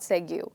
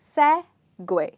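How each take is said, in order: First: The word ends with a plain 'goo' sound. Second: The word ends with a 'gway' sound. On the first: The speaker calls it wrong. "it's not Segu" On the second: The speaker calls it right. "So you stress on the first part and you say segue"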